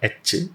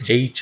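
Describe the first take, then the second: First: The vowel is a short 'eh' sound. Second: The vowel is a gliding 'ay' sound. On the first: The speaker calls it wrong. "It's not എച്ച്" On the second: The speaker calls it right. "എയ്ച്ച് എന്നാണ് പറയുക"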